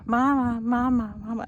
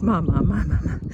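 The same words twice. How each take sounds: First: Lightly imitating a baby's happy mama call; mild baby cooing mama; happy baby babble. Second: Louder wailing "mama, mama, mama"; crying baby imitation. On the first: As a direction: coo it like a pleased baby, a touch higher. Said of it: "It was a". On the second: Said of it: "he starts crying the same thing of".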